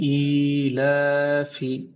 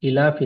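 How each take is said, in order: First: The vowel is drawn out and lengthened. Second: The vowel is said short, not drawn out. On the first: The speaker calls it right. "इसको हम खींचेंगे" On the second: The speaker calls it wrong. "इलाफी नहीं"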